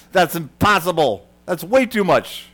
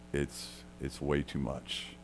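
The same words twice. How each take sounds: First: Higher, louder mock disbelief, as if it can't be; incredulous scoff. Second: Softer and slow, letting it sink in; hushed, conceding the point; quiet agreement. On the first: Jesus's audience scoffing at an impossible debt, incredulous. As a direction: scoff at the idea like a doubting crowd. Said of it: "the people then in the audience are like". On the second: Real, not acted. Preacher agreeing with the doubting crowd, hushed and slow.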